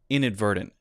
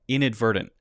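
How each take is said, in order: First: The t sounds are a light d and stop. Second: The t sounds are a light d and stop.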